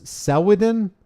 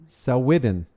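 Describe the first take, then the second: First: "Selwydden" pitched high, then falling; unsure inflection. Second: "Selwydden" evenly, close to usual pitch; second try at inflection. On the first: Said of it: "I don't know how to inflect that". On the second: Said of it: "emphasis on the wrong syllable". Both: Shown as a demonstration.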